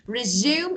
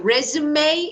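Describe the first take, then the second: First: It is pronounced the way the verb is. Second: It is pronounced the way the noun is. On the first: It names an action. "Resume is verb" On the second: It names a document listing work experience. "resume is noun"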